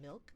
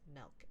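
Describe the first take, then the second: First: The vowel sounds like the i in bill. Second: The vowel sounds like the e in bell. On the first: "you mean milk?" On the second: "M E L K"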